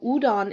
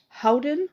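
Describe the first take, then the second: First: The word begins with a vowel sound. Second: The word begins with an H sound. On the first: The speaker calls it right. "you kind of eliminate that H" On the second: The speaker calls it wrong. "Sometimes it's pronounced Howden"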